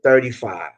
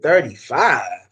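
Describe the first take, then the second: First: Said in the usual way. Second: Slow, drawn-out incredulous echo; retold disbelief. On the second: Customer questioning the detailer's low price, retold disbelief. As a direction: stretch THIRTY-FIVE out as a doubting question.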